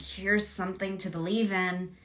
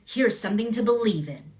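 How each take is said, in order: First: The ending does not fall firmly. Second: The ending falls firmly downward. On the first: The speaker sounds unsure. The speaker calls it wrong. "I'm unsure of this. It wasn't like" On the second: The speaker sounds certain. The speaker calls it right. "It was always a button at the end"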